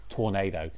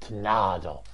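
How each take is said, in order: First: It is said with an English pronunciation. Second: It is said with a Spanish pronunciation. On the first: The speaker calls it wrong. "rather than Tornado" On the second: The speaker calls it right. "that Spanish way"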